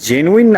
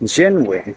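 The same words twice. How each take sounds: First: The middle syllable 'nu' carries strong stress. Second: The middle syllable 'nu' carries no stress. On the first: The speaker calls it wrong. "আপনি এই যে নু এর উপর একটা stress দিচ্ছেন" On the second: The speaker calls it right. "আমি কিন্তু কোনো স্ট্রেস দিচ্ছি না"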